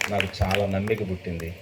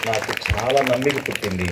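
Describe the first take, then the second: First: చాలా leaned on, whole line much softer; hushed emphatic repetition; soft heartfelt echo. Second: Said in the usual way. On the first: Shown as a demonstration. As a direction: repeat it quietly, letting it sink in.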